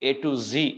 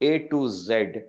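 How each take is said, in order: First: The last letter is pronounced zee. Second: The last letter is pronounced zed. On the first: This is the American usage. "American ઇંગ્લિશમાં એને એ ટુ ઝી એમ કહે છે" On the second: This is the British usage. "ઝેડ એ British English છે"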